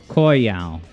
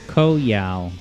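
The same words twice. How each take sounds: First: The first syllable rhymes with boy. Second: The first syllable sounds like co in cooperative. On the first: The speaker calls it right. "the first syllable as Koi, as in rhymes with boy" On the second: The speaker calls it wrong. "like cooperative Yao"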